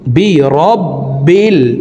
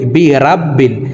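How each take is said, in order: First: The r syllable has a rounded 'o' vowel. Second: The r syllable has an open 'a' vowel. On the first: The speaker calls it right. "বলতে হবে এইভাবে" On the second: The speaker calls it wrong. "আমরা অনেকেই এই শব্দটিকে ভুল পড়ে থাকি, এভাবে পড়ি"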